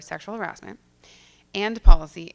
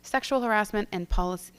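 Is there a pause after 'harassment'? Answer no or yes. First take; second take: yes; no. First: There is a pause after 'harassment'. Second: The words run together without a pause. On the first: The speaker calls it right. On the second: The speaker calls it wrong.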